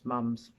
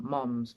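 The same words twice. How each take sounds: First: Said in the usual way. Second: "mom's" tried with an American open o, halting. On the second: Shown as a demonstration. British host attempting the American word, unsure. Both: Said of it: "Can't really say it the American way".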